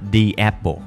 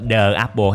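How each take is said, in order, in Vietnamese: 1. Từ 'the' được đọc là 'thee'. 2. Từ 'the' được đọc là 'thuh'. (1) "chúng ta đọc là the apple" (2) "chúng ta có đọc là the apple hay không? Không"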